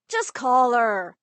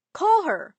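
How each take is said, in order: First: "Just call her" slowed, with weight on "Just"; slow insistence. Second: "Call her" pushed higher and louder, falling hard at the end; insistent. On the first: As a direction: lean on "Just" and drag the words out. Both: Acted. Friend insists dad call her.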